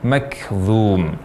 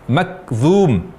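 First: The k is released with a light breath. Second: The k is released with no breath at all. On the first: The speaker calls it right. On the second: The speaker calls it wrong. "tanpa hamas"

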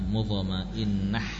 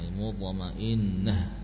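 First: The word ends in a harsh, throaty h. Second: The word ends in a soft, breathy h. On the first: The speaker calls it wrong. "bukan mutmainnah" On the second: The speaker calls it right. "mutmainnah ya"

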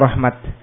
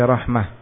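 First: The word ends with a stopped -at sound. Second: The word ends with a stopped -ah sound. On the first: "diwaqafkan dengan ta" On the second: "maka yang lebih fasih waqaf dengan ha"

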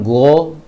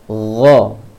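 First: It starts with a plain hard g sound. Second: It starts with a throaty, airy gh sound. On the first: The speaker calls it wrong. "Jangan go" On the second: The speaker calls it right. "suara tahanan angin di tenggorokan"

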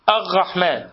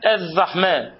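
First: The r sound is replaced by a gh sound. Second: The r sound is replaced by a dh sound. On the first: "واللثغة في الراء تكون بالغين" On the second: "والذال"

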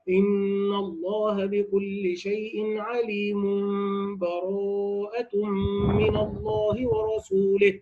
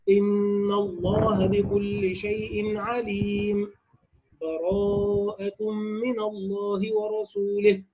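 First: 'alim' runs straight into the next word without pausing. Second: A full stop with a breath follows 'alim'. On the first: "الوصل هكذا" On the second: "القطع أي الوقف على عليم مع أخذ نفس"

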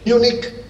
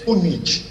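First: The name is said with English pronunciation. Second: The name is said with Spanish pronunciation. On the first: "En inglés" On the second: "en español"

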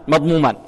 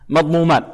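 Both takes have the same delivery.

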